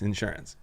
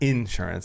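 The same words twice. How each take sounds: First: The stress is on the second syllable. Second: The stress is on the first syllable. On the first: The speaker calls it right. "You're putting it on the sure?" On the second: The speaker calls it wrong. "It's not insurance"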